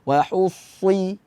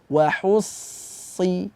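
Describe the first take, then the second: First: The lips are rounded and pushed forward. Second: The lips are spread as in a smile. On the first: The speaker calls it wrong. "mulut tidak moncong, tidak dibaca wahussi" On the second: The speaker calls it right. "Tapi dibaca senyum"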